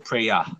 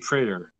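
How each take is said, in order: First: The word ends in an ah sound. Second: The word ends in an er sound. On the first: "The ER becomes A" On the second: "So they won't say prayer"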